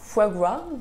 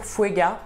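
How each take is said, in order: First: The name is said as two clear words. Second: The name is blurred into one word, fuega. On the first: "il s'appelle Foie Gras" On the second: "je le prononce super mal"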